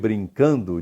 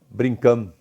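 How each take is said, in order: First: The -ndo ending is fully pronounced. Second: The -ndo ending is reduced to a nasal sound. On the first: "Em vez de brincando"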